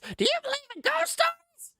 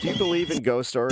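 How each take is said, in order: First: It is said in a put-on rock star voice. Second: It is said in an ordinary speaking voice.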